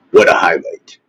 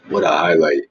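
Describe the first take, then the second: First: Sneering fake praise, called out; a mock shout of "What a highlight", sarcastic; sarcastic mock cheer. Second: "What a highlight" said quieter, deadpan and falling; "What a highlight" muttered again, deadpan; dry sarcasm. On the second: Pretend. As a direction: mutter it dryly to yourself.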